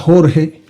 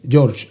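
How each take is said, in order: First: The name is said with a Spanish J. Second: The name is said with an English J.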